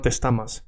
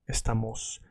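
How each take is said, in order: First: Estamas ending in an a sound; wrong final vowel. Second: Estamos ending in a clear o, said softly; correct final o. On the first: Teacher warning students off the error, estamas ending in a. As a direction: say estamas with "mas" at the end. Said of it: "so it's not estamas". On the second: Teacher giving students the right form, estamos ending in o. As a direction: say estamos with "mos" at the end. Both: Shown as a demonstration.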